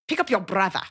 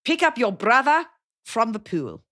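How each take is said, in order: First: Shorter South African repeat of the order; South African parent repeating the chore order; South African accent. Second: Slow South African parent voice; imitating a South African parent ordering a kid around; South African accent. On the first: Retold or imitated. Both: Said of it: "South African accent imitating my friend's parents".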